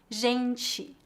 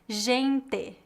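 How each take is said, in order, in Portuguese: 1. A sílaba final não é pronunciada como 'te' simples. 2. A sílaba final é pronunciada como 'te' simples. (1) "que seria a pronúncia mais comum no restante do Brasil" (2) "o traço mais marcante no sotaque é a pronúncia do T E e D E, como em gente"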